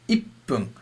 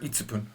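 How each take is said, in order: First: The p is doubled with no tsu syllable. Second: A full tsu syllable is said before pun. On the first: The speaker calls it right. "A small tsu, which means it's ippun" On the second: The speaker calls it wrong. "Never itsupun"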